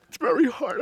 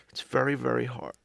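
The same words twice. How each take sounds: First: Cracking into a sob, higher; crying. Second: Said in the usual way. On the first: Acted. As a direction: voice breaks high into tears. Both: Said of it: "I promised myself I wasn't gonna cry today".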